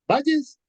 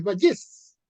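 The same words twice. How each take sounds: First: "Valles" as VA-lles, first syllable high and loud; stress on first syllable. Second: "Vallés" as va-LLÉS, final syllable stressed; stress on last syllable. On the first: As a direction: punch VA in "Valles". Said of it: "palabra grave". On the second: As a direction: land firmly on LLÉS in "Vallés". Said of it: "palabra aguda". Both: Shown as a demonstration.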